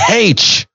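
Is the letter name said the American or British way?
British. The letter is said the British way, 'haitch'.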